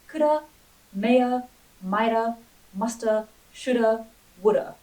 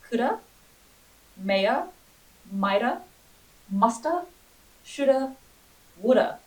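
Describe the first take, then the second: First: The list is said a little faster. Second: The list is said at a normal pace.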